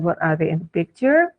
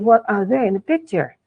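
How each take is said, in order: First: The voice rises at the end. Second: The voice falls at the end. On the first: The speaker calls it wrong. "Jadi bukan" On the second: The speaker calls it right. "falling intonation"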